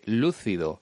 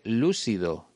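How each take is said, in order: First: The c sounds like th, Spain style. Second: The c sounds like s, Mexican style.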